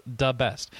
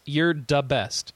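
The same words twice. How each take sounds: First: "the best" repeated as "da best". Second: "the best" said slowly as "da best". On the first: Shown as a demonstration. Host explaining the email's spelling, "the" pronounced "da". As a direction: show that "the" is spelt and said "da". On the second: Acted. Host reading listener's praise as typed, "the" pronounced "da". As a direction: say "the" as "da" before "best". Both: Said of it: "he said D A".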